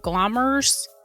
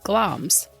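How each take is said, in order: First: The name is said with two syllables. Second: The name is said with one syllable. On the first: This is the dictionary pronunciation. "when I look up pronunciations, it says G L A M R S, so Glommers" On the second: This is how people say it in videos. "on YouTube videos, people seem to say Gloms"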